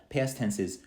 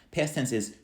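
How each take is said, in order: Both takes have the same delivery.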